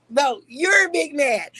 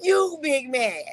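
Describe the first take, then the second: First: Taunting. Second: Slow taunt through laughter, higher; laughing taunt. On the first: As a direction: drag it out to needle him. Taunting the other person. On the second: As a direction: tease him while laughing. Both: Real, not acted.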